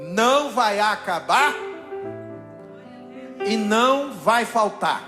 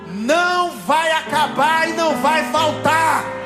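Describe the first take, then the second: First: It is said at normal volume. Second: It is shouted loudly.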